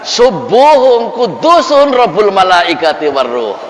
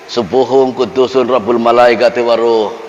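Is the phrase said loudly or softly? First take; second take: loudly; softly. First: The phrase is said loudly and forcefully. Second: The phrase is said softly, just audible. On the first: This is the third and final recitation. "yang ketiga itu lantang, terdengar keras" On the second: This is the first recitation. "Yang pertama yang penting kedengar"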